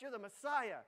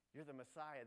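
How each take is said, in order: First: Louder, higher "Messiah" pressed hard; insistent protest. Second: Said in the usual way. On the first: Retold or imitated. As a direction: push back urgently at Jesus. Peter protests to Jesus.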